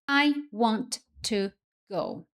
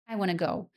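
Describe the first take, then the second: First: Want and to are said as separate words. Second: Want and to merge into one sound.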